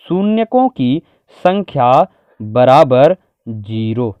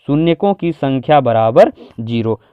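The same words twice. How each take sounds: First: Drawn-out, word by word with pauses; slow dictation. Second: Said in the usual way. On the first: Shown as a demonstration. Teacher giving students the answer to write, slow dictation. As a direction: dictate it slowly as it is written. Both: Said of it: "क्या लिख सकते हैं".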